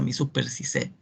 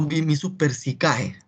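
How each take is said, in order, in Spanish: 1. La terminación ae se pronuncia como una sola e. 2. La terminación ae se pronuncia como dos vocales. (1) "En realidad se pronuncia" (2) "Y no"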